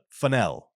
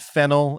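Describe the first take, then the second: First: It sounds like the funnel in funnel cake. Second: It sounds like the herb name fennel. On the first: The speaker calls it right. "but Fennell, as in the cake" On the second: The speaker calls it wrong. "Not fennel, as in the herb"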